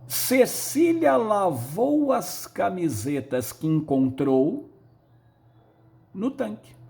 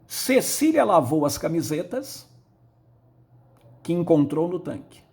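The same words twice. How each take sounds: First: A pause comes between 'encontrou' and 'no tanque'. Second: No pause comes between 'encontrou' and 'no tanque'. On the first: The tank is where the shirts were washed. "Vou fazer uma pausa diferenciada" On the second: The shirts were found lying in the tank. "Eu vou fazer uma pausa em cada uma delas. Primeira"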